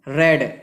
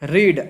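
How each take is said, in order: First: The vowel is short, like 'red'. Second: The vowel is long, like 'reed'. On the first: It is the past form, meaning read already. "उसको उच्चारण करते हैं रेड" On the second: It is the present form, meaning to read. "रीड means पढ़ना"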